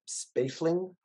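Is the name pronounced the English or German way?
English. The name has an English pronunciation. The speaker calls it wrong. "but in English, ... See, that doesn't sound right"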